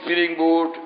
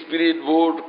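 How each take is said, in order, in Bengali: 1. প্রথম শব্দটি 'ng' উচ্চারণে শেষ হয়। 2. প্রথম শব্দটি 't' উচ্চারণে শেষ হয়।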